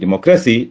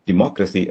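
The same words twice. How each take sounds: First: The stress falls on the third syllable. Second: The stress falls on the second syllable. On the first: The speaker calls it wrong. "Stress penultimate സിലബിളിലായിരുന്നെങ്കിൽ" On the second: The speaker calls it right. "Anti penultimate സിലബിളിലാണ്"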